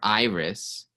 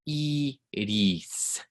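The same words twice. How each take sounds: First: It is said with an American English accent. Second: It is said with a Spanish accent. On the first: The speaker calls it wrong. "For an American speaker, the temptation is going to be say" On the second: The speaker calls it right. "It takes more muscle"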